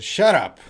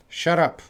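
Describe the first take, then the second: First: Sharp, loud shut up; snapped shut up. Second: A sharp, louder shut up; rude shut up. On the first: Teacher demos a rude shut up to the class. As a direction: bark it at someone rudely. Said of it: "So if I said". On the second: Teacher repeats the rude shut up for students. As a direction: say it to silence someone. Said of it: "Right now, I said". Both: Shown as a demonstration.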